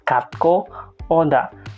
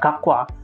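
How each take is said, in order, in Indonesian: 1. Diucapkan pelan dengan setiap suku kata jelas. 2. Diucapkan cepat dengan suku kata saling menyambung. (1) "kalau dilafalkan secara pelan" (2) "karena orang Korea itu ngomongnya cepat, banter, jadinya terdengar gakwa"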